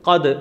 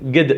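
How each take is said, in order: First: It starts with a deep throat q sound. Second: It starts with a hard g sound. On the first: This is the standard written form. "അറബിയിൽ ഖദ് എന്ന് പറയുന്നൊരു പ്രയോഗമുണ്ട്" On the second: This is the everyday spoken form. "സംസാര ഭാഷയിലാക്കുമ്പോൾ ഗദ് ഗദ് എന്ന് പറയും"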